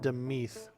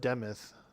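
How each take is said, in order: First: The second syllable has a long ee vowel. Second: The second syllable has a short i vowel. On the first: This is the speaker's preferred pronunciation. "I like to pronounce it Demeath" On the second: This is how some other people pronounce it. "some people call it Demith"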